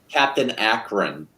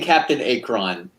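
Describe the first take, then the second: First: Akron is said like the Ohio city. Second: Akron is not said like the Ohio city. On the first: The speaker calls it right. "actually Captain Akron, like Akron, Ohio" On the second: The speaker calls it wrong. "I've been saying Captain Akron forever"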